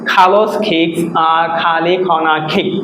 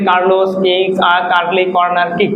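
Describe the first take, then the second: First: Aspirated k sounds, with the r sounds dropped. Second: Plain k sounds, with the r sounds pronounced. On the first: This is the British English pronunciation. The speaker calls it right. "আমরা আমাদের সঠিক উচ্চারণভাবে করবো" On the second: This is how learners usually say it. The speaker calls it wrong. "আমরা normally কি বলি ... এইভাবে না"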